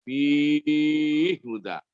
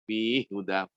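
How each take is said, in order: First: The long vowel is held for six counts. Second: The long vowel is held for two counts. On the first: "enam harokat" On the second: "dua harokat"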